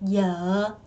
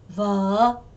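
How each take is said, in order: First: The word begins with a y sound. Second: The word begins with a v sound.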